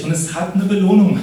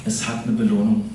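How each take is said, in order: First: Higher and louder, driving the point home; emphatic proclamation. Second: Said in the usual way. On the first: Real, not acted. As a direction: proclaim the payoff with a rising surge of energy. Preacher drives home the key point. (nachdrücklich und begeistert verkündet)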